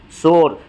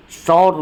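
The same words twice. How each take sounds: First: शोर with a pure 'o'; plain o vowel. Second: शौर with an open 'aw' instead of o; open au vowel. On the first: Teacher giving the accepted form, pure o in शोर. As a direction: say शोर with a rounded o. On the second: Teacher showing the rejected form, open 'aw' in शौर. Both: Shown as a demonstration. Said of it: "शौर नहीं बोलते हैं".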